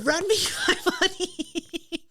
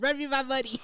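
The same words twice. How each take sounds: First: Laughing through the phrase, higher and slow. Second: Said in the usual way. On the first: Real, not acted. Host laughing while repeating the episode title. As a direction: break into laughter mid line.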